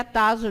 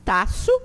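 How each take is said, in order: First: TASO with a buzzing Z in the middle; Portuguese S. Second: TAÇO with a voiceless S in the middle; crisp unvoiced S in TAÇO, ta-so; S as cedilla. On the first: Teacher contrasts Portuguese reading, Z sound in TASO. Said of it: "Em português seria". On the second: Teacher gives the Esperanto reading, sharp S in TAÇO. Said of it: "em Esperanto ele tem o som desse cedilha". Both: Shown as a demonstration.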